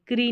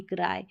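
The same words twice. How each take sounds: First: क्री ending in long ee; wrong vowel. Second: क्राई ending in an eye sound; correct vowel. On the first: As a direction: end क्री on an ee sound. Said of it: "क्री नहीं". (गलत उच्चारण: क्री, अंत में ई) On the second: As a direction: end क्राई on आई. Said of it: "तो इसको आई पढ़ते हैं". (सही उच्चारण: क्राई, अंत में आई) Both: Shown as a demonstration.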